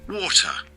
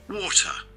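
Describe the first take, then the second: No difference in how they are said.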